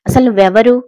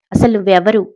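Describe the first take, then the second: First: A scared "అసలు నువ్వెవరు?" asked higher and louder; fearful demand for who she is; frightened. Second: "అసలు నువ్వెవరు?" demanded firmly and louder; commanding, not scared now; forceful bass voice. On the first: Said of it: "అని భయంగా అడిగింది". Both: A narrator's reading.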